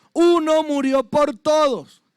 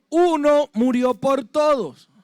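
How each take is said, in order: Both takes have the same delivery.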